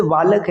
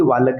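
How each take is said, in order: First: बालक said with a B, "baalak"; correct B sound. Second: बालक said with V for B, "vaalak"; wrong V sound. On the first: Teacher giving students the right form, B in बालक. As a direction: start बालक on B, not V. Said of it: "उसको आप बालक कहेंगे". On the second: Teacher showing what not to say, wrong V in बालक. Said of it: "ना कि बालक कहेंगे". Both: Shown as a demonstration.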